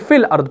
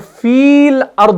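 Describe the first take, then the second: First: The first vowel is short and joined on. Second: The first vowel is held long. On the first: The speaker calls it right. "बल्कि फिल अर्द पढ़ते हैं" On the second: The speaker calls it wrong. "हम इसको फील अर्द नहीं पढ़ते"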